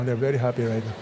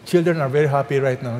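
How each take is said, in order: First: Softer, lower teasing aside to the parents. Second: Said in the usual way. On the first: Shown as a demonstration. Pastor teasing parents that children enjoy this, softer aside. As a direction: drop the voice for a playful aside.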